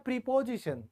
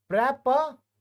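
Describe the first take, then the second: First: The first syllable has a long 'ee' vowel. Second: The first syllable sounds like short 'prep'. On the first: "इसको बोला जाता है प्रीपोजिशन" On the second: "ऐसे बोलिएगा इसे"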